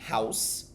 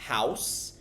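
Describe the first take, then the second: First: It is blended into one syllable, like house. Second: The same.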